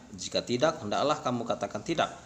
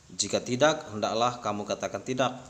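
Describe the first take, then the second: Both takes have the same delivery.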